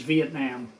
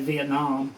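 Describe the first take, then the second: First: The last syllable has an open 'ah' vowel. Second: The last syllable has a rounded 'oh' vowel. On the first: This is the standard way. "I guess correct pronunciation is Vietnam" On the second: This is the speaker's habitual way. "I've always called it Vietnam. I guess it doesn't have an O in it"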